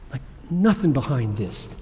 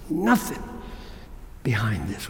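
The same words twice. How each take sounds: First: Said in the usual way. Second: "Nothing" lifted, then "behind this" dropped much lower and softer; hushed emphasis. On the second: Shown as a demonstration. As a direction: lean on "Nothing", let "behind this" fall away to a hush. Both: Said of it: "He put the emphasis".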